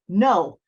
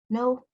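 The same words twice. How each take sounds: First: It is said forcefully, like a roar. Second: It is said timidly, like a little girl.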